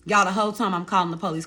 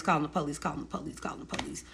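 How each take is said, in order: First: Said in the usual way. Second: Each repeat softer until it's only breath; fading to a whisper. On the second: Shown as a demonstration. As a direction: let the phrase die away into a whisper. Repeats phrase, voice fading away.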